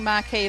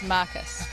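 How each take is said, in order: First: The word ends with a long 'kee' sound. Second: The word ends with a short 'kus' sound. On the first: The speaker calls it wrong. "We were saying Marquee like the Marquees around here" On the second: The speaker calls it right. "but it's Marcus"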